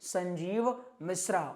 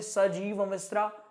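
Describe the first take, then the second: First: The first name has a nasal sound after 'sa'. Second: The first name has no nasal sound after 'sa'. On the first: The speaker calls it right. "हमारा नाम है" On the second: The speaker calls it wrong. "आप बोल दें ... तो खंडित हो गया नाम"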